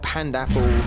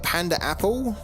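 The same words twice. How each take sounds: First: The 'a' sounds carry no extra emphasis. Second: Both 'a' sounds carry strong extra emphasis. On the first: "maybe it is like that" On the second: "So like the double emphasis on the A"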